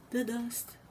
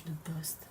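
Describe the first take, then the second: First: The dust, repeated higher in mock despair; exasperated. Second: Said in the usual way. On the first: Griping to chat about windy-day dust, exasperated. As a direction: groan it out like dust is ruining everything.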